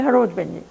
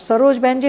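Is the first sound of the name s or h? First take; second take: h; s. First: The name begins with an h sound, Rajasthani-style. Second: The name begins with an s sound.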